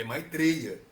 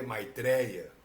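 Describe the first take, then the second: First: "Maitreya" with closed e, loud and deliberate; Sanskrit pronunciation. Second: "Maitreya" with open é, plain level; "Maitreya" the Brazilian way, open é; Portuguese pronunciation. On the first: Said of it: "a pronúncia sânscrita de Maitreya". ("Maitreya" com e fechado, enfático) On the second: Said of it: "A pronúncia em português é". ("Maitreya" com é aberto, natural) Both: Shown as a demonstration.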